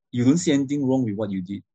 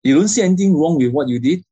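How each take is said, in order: First: No pressure on "anything wrong", usual pitch; statement intonation. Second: Higher, louder challenge lifting through "anything wrong"; demanding question, hard on "anything wrong"; question intonation. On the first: Trainer demonstrating a non-demanding statement, even tune. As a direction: state it evenly, settling on "what you did". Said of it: "questions versus statements". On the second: Trainer demonstrating an interrogating question to a child, loud challenge. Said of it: "You compare these two". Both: Shown as a demonstration.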